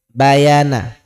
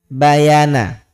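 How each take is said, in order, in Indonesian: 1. Vokal pertama diucapkan pendek. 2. Vokal pertama diucapkan pendek.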